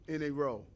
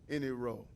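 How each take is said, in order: No difference in how they are said.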